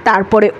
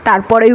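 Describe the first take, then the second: Both takes have the same delivery.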